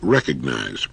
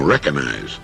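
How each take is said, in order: First: The G sound in the middle is pronounced. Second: The G sound in the middle is dropped. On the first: The speaker calls it right. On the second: The speaker calls it wrong.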